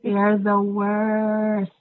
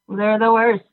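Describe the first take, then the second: First: It is said at normal, softer volume. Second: It is said louder, with more force.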